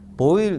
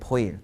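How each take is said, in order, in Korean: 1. 이름은 B 발음으로 시작해요. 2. 이름은 P 발음으로 시작해요. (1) "미국식 이름은 보일이고" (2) "외국에서는 포일이라고 읽거든요"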